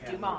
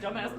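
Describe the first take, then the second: First: The name ends without any s sound. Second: The name ends with a clear s sound. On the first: The speaker calls it right. "he's like, it's Dumas" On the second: The speaker calls it wrong. "the guy keeps pr- mispronouncing it"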